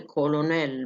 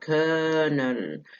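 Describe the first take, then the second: First: It is said with an L in the middle. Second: It is said with an R-like vowel instead. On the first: "تتنطق كولونيل بالفرنساوي" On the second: "عملوها كيرنل"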